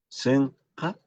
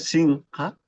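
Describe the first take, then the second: First: The first vowel is an open e sound. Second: The first vowel is a close i sound. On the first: "acá ya la I se abre un poquito" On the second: "o simplemente puede Sinja, no hay problema"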